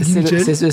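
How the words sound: The name is pronounced with a French accent.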